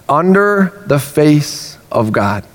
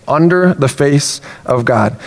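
The two takes are said the same way.

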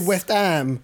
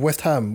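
First: The H at the start of Ham is dropped. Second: The H at the start of Ham is pronounced. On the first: "You say West Ham" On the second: "instead of West Ham"

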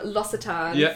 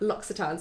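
First: The double C sounds like a plain s. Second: The double C sounds like ks, an X. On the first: The speaker calls it wrong. "I was calling it L'Occitane for about 5 years" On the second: The speaker calls it right. "the double C, I think is like an X"

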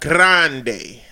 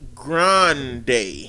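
First: The R is rolled with a trill. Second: The R is said plainly, not rolled.

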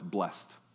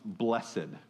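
First: The word is said as one syllable. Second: The word is said as two syllables. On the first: This is the everyday usage outside church. "you read this word in any context outside of your Bible" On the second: This is the churchgoers' usage. "we add a syllable on there. It suddenly becomes blessed"

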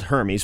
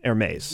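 First: The name gets a literal English-style reading. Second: The name gets its French-style pronunciation. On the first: The speaker calls it wrong. "it's spelled Hermes" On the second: The speaker calls it right. "but it's pronounced Hermes"

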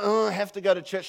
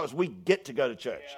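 First: It sounds reluctant and burdened. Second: It sounds glad and joyful.

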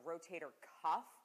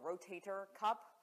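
First: The last word ends with an f sound. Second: The last word ends with a p sound. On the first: The speaker calls it right. "It is, in fact, the rotator cuff" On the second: The speaker calls it wrong. "A lot of people will say rotator cup"

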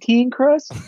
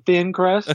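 First: Thin is said like teen, in a bayou accent. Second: Thin is said with a plain th sound. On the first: "Got that bayou accent?" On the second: "Instead of saying thin crust"

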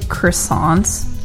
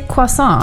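First: The word is said with English pronunciation. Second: The word is said with French pronunciation. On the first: "I don't say" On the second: "the pretentious way"

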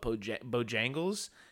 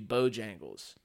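First: The stress is on the second syllable. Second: The stress is on the first syllable. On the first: It marks the speaker as a northerner. The speaker calls it wrong. "I have been saying it very northernly" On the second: It is how locals say it. The speaker calls it right. "it's supposed to be Bojangles"

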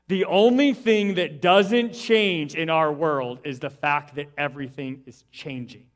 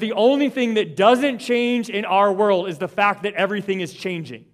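First: It is said a little more slowly. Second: It is said at a normal pace.

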